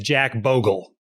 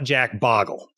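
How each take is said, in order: First: The vowel in Bogle is long, as in 'go'. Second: The vowel in Bogle is short, as in 'log'. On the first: The speaker calls it right. "the man's name is" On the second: The speaker calls it wrong. "is not"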